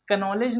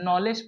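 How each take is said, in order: First: A k sound is pronounced at the start. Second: No k sound is heard at the start. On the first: The speaker calls it wrong. "नहीं पढ़ेंगे" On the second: The speaker calls it right. "क्योंकि यहाँ पे के silent है"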